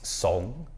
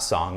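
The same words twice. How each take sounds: First: The vowel is a rounded, deeper ong sound. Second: The vowel sounds like the English word song. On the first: The speaker calls it right. "the O N G sound in Chinese makes the ong" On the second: The speaker calls it wrong. "S O N G is not song"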